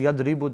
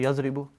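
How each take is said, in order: First: The middle consonant is a d sound. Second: The middle consonant is a z sound. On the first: "they don't say Yadribu" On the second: "they say Yazribu"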